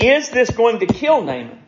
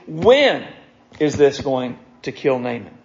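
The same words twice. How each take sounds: First: "Is this going to kill Naaman?" pitched high, leaning on IS; question stressed on IS. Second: "When" set apart and stronger, then a pause and a low finish; stress on WHEN. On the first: Preacher dismissing the wrong question, stress on "Is". Rejected question set against the real one. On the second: Preacher posing the real question, stress on "When". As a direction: hit "When", pause, drop low for the rest. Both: Shown as a demonstration.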